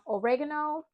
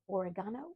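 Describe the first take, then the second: First: It is said in an American accent. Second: It is said in a British accent.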